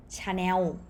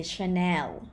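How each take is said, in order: First: "Chanel" as cha-new, ending in w; Thai pronunciation. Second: "Chanel" as shuh-NEL with final l; non-Thai pronunciation. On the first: Teacher showing what Thais say, Thai pronunciation. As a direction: round the end of "Chanel" into w. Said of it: "with vowel ending consonant". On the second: Teacher showing what Thais don't say, non-Thai pronunciation. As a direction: end "Chanel" on a clear l. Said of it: "Thai people don't say". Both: Shown as a demonstration.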